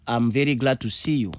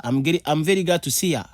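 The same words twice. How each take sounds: First: Said in the usual way. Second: Quick, higher American-style 'see ya', run together; casual American see ya. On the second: Shown as a demonstration. Teacher demos the American way of saying goodbye, casual. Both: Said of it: "L'anglais américain te dira to see ya".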